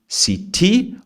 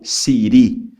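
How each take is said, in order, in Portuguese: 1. A consoante do meio é um som de T claro. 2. A consoante do meio é um R batido, rápido. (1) "um som de T" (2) "como se fosse Siri mesmo, com R"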